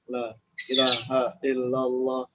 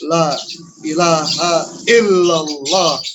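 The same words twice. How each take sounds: First: It is said forcefully but muted, pushed inward. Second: It is said loudly and forcefully out loud. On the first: "keras tapi ke dalam" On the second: "dihantam dengan keras"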